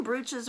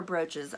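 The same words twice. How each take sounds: First: Brooches said as BROO-chiz; first vowel of "brooches" as a long oo. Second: Brooches said as BROH-chiz; first vowel of "brooches" as a long oh. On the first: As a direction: say "brooches" with the oo of food. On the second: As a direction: say "brooches" with the o of boat. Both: Shown as a demonstration. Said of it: "Do you call them brooches or brooches?".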